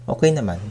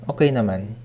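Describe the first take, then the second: The two takes are said the same way.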